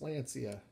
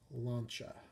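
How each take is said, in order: First: The name is said with three syllables. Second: The name is said with two syllables. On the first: The speaker calls it wrong. "It is not pronounced Lancia" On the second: The speaker calls it right. "Two syllables. If it was phonetical, it would be L A U N C H A"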